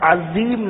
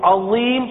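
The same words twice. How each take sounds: First: The middle consonant is a plain z sound. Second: The middle consonant is an emphatic th-like sound. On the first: The speaker calls it wrong. "عظیم نہیں پڑھنا" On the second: The speaker calls it right. "عظیم پڑھنا ہے"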